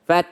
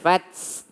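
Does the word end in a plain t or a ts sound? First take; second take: plain t; ts. First: The word ends with a plain breathy t. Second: The word ends with an added s sound. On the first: The speaker calls it right. "anginnya itu alami dari huruf ta, nggak pakai s" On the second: The speaker calls it wrong. "jangan sampai ditambah dengan s"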